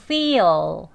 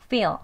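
First: Louder feel, L fully sounded; careful dictionary feel; textbook L. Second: Casual feel, light ending; dark weak L. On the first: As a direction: feel with the tongue tip up, clear full L. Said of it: "배우는 발음은 혀끝 치경까지 올라가서". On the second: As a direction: feel with the L almost inaudible, like fear. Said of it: "리을 소리가 아예 안 들리는 것처럼요". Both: Shown as a demonstration.

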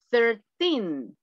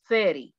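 First: Put-on thirteen with a long stressed teen. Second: Thirty with the stress on thir and a short ty. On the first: Teacher contrasting thirteen with thirty for the class, stress on teen. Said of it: "si yo quiero decir trece". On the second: Teacher contrasting thirty with thirteen for the class, stress on thir. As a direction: say thirty quick, first syllable stressed. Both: Shown as a demonstration.

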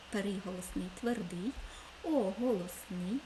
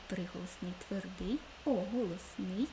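Both takes have the same delivery.

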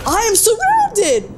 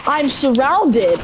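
First: High, drawn-out panicked cry. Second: Slow, dismayed realization; alarmed. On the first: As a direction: wail it high and slow in real alarm. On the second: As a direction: stretch it out in dismay. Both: Real, not acted. Swarmed by enemies in game.

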